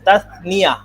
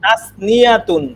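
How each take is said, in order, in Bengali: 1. শব্দটির শেষে অতিরিক্ত '-তুন' দল নেই। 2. শব্দটির শেষে একটি অতিরিক্ত '-তুন' দল আছে। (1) "তাসনিয়া এতটুকু বললেই হবে"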